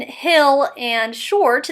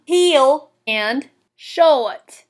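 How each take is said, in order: First: Said in the usual way. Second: "heel" and "short" drawn into two syllables; slow Southern lilt, no R in "short". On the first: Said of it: "as in hill and short". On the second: Shown as a demonstration. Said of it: "one-syllable words two syllables".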